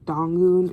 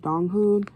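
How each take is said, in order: First: The middle h sound is skipped. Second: The middle h sound is clearly pronounced. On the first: The speaker calls it wrong. "my brain doesn't click the right way and I say Dongun" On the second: The speaker calls it right. "instead of Donghoon"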